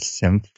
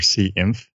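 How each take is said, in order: First: The name is said as a single word. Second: The name is spelled out letter by letter.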